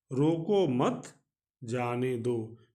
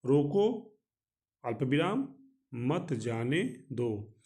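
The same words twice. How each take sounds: First: रोको मत run together slowly, break before जाने दो; group रोको मत as one phrase, pause before जाने दो; no pause after रोको. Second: रोको said alone with a clear pause, then मत जाने दो slowly; pause after रोको. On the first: Teacher showing the meaning without the comma, slow phrasing after रोको मत. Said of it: "बिल्कुल विपरीत अर्थ". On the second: Teacher showing the comma pause to students, clear break after रोको. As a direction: break hard after रोको so it means stop, don't let go. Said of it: "वहाँ से अल्प विराम हटाकर". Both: Shown as a demonstration.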